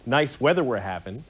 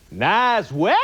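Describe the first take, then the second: First: Said in the usual way. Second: Put-on "Nice weather!" squashed to "næz we" in a Maine accent; mock Maine accent. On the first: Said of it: "it comes like this". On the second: Comedian mocking how people in Maine talk, Maine accent. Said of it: "this crazy accent in Maine".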